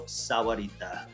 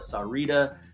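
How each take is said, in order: First: The middle has a clear 'wa' sound. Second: The name is shortened, without a middle 'wa' sound. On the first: This is how locals say it. The speaker calls it right. "If you're a local and you've been here long enough, you call it Rancho Sahuarita" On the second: This is how some non-locals say it. The speaker calls it wrong. "Some people call it Sarita"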